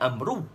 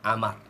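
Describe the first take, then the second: First: The name ends with an oo vowel. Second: The name ends with an r sound. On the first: The speaker calls it wrong. "kita tak baca Amru" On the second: The speaker calls it right. "Kita baca dia Amar"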